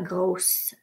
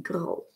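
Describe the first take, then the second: First: The final s sound is pronounced. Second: The final s sound is silent. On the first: The speaker calls it wrong. "On ne dit pas grosse" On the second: The speaker calls it right. "Et le S est silencieux. ... on dit gros"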